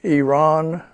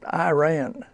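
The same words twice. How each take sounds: First: It is said the local Middle Eastern way. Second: It is said the common American English way. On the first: The speaker calls it right. "it's uh, Iran" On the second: The speaker calls it wrong. "not Iran"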